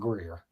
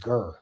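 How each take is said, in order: First: The name has an 'ee' vowel before r. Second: The name has an 'ur' vowel. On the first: This is how outsiders say the name. The speaker calls it wrong. "they don't pronounce it Greer" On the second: This is how local residents say the name. The speaker calls it right. "that it was Gur"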